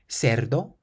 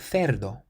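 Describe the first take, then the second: First: The c sounds like an s. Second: The c sounds like a th. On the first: "like an S" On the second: "or a Th"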